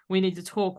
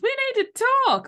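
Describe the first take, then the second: First: It sounds ominous and threatening. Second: It sounds cheerful and friendly.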